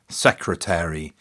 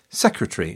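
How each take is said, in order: First: All syllables are pronounced. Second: One syllable is left out.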